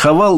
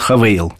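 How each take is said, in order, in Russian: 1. Во втором слоге простой гласный 'a'. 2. Во втором слоге есть скольжение 'ei'. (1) "Там произносится Хавал" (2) "но для нас они говорят, будут Хавейл"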